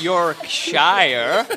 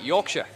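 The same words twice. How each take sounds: First: The last syllable has a long vowel and hard R. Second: The last syllable has a short, reduced vowel. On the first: The speaker calls it wrong. "We don't call it Yorkshire" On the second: The speaker calls it right. "It's a short sound"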